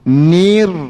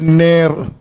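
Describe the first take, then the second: First: The vowel is a clear high 'ee' sound. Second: The vowel is a slanted mid 'eh' sound. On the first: The speaker calls it right. "Kena baca nir. Mulut sikit" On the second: The speaker calls it wrong. "Ramai yang baca ner. Ner tu dah jadong, dah condong tu"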